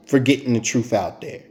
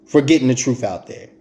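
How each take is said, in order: Both takes have the same delivery.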